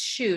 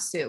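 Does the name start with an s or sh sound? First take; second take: sh; s. First: The name starts with an sh sound. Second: The name starts with an s sound. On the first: The speaker calls it right. "It's Shu" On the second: The speaker calls it wrong. "not Sue"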